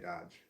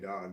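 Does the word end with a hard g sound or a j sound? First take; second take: j sound; hard g. First: The word ends with a soft j sound. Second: The word ends with a hard g sound. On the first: "they say Dodge" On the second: "they don't say dog"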